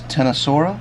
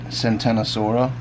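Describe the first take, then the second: First: The word starts directly with a 't' sound. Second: The word starts with an extra sound before 't'.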